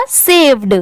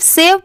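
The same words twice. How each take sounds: First: सेव्ड with the final ड sounded; word read in full. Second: सेव without the closing ड sound; final d left off. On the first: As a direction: finish सेव्ड on a clear d. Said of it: "आप इसको पूरा पढ़िएगा". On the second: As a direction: say सेव, stopping on the v. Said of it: "इसका मतलब ये wrong होगा". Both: Shown as a demonstration.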